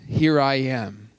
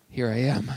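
First: It is said in a calm, plain way. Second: It is said in a nervous, frightened way.

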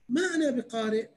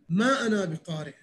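First: It is said with a questioning tone. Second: It is said with a refusing, resistant tone. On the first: What is it that I should read? "يعني شنو أقرأ" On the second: I do not want to read. "يعني ما أريد أقرأ"

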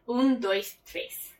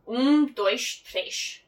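First: São Paulo accent with clear S sounds. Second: Portugal accent with sh-like S sounds.

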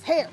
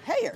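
First: The word is said quickly as one syllable. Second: The word is drawn out into two syllables. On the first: The speaker calls it right. "Just say it real fast" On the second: The speaker calls it wrong. "my son thinks the stuff that grows out of your head is a two-syllable word"

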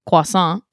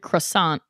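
First: It is said the French way, without the r. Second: It is said as spelled, with a clear r. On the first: This is how it is actually said. "and they say croissant" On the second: This is how the spelling suggests it is said. "if you read croissant"

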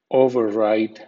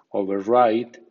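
First: The stress is on the first syllable. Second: The stress is on the second syllable. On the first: It is used as a noun. "OVER suena over con acento fuerte como overcoat, override, nombre" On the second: It is used as a verb. "con acento medio, override, verbo"

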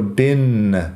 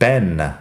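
First: The vowel is a short i, like bin. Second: The vowel is a short e, like Ben. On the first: This is one regional American pronunciation. "yo lo pronuncio bin como si fuera una i corta" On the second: This is another regional American pronunciation. "Hay otros americanos que lo dicen Ben"

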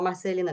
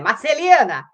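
First: The name is said flatly, without emphasis. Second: The name is shouted with strong intonation.

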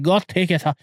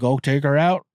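First: It is said in the dad's foreign accent. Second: It is said in a plain American accent.

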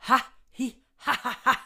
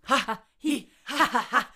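The two takes are said the same way.

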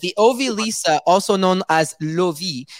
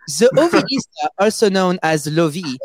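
First: It is read in the speaker's ordinary accent. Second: It is read in a put-on French accent.

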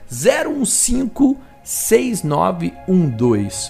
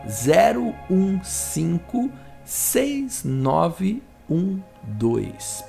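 First: The code is read at normal speed. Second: The code is read slowly.

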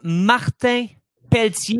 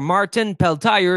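First: The name is pronounced with a French accent. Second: The name is pronounced with an English accent.

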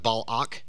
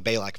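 First: The name is said in a careful, formal way. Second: The name is said in a Southern American way. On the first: This is the proper pronunciation of the name. "Probably the correct pronunciation of his name would be like Balak" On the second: This is the casual local pronunciation of the name. "I'm from South Georgia, so we're gonna call him Balak"

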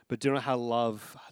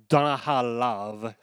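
First: It is read in his normal voice. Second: It is said in a put-on romantic Italian-style voice.

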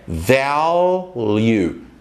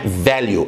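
First: The L is said fully, tongue raised. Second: The L is said weakly, tongue not raised. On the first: The speaker calls it right. "você tem que colocar a língua um pouquinho para cima" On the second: The speaker calls it wrong. "Não é value"

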